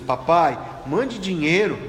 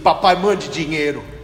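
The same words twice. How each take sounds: First: It sounds soft and pleading. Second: It sounds curt and demanding. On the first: The request is kind, so money would be sent. The speaker calls it right. "Se tivesse escrito assim" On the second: The request is rude, so no money is sent. The speaker calls it wrong. "olha isso, escrito assim"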